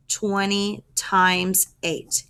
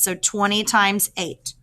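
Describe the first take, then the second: First: Slow, deliberate "Twenty times eight"; teacher slowing down to drive "Twenty times eight" home; slow emphatic repeat. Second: Said in the usual way. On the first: Shown as a demonstration. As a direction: spell "Twenty times eight" out slowly for the class.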